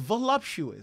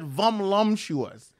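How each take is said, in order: First: The word is said cleanly without extra sounds. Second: The word is garbled with extra m sounds. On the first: The speaker calls it right. "It's voluptuous" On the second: The speaker calls it wrong. "You said vumlumptuous"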